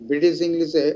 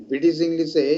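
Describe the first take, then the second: No difference in how they are said.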